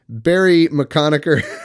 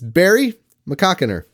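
First: The name comes out sounding like a rude word. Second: The name is said cleanly as two separate names. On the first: The speaker calls it wrong. "I said it wrong, and I'm glad I did, because we'd have to bleep it out" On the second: The speaker calls it right. "it's two separate names"

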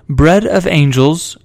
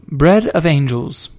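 The two takes are said the same way.

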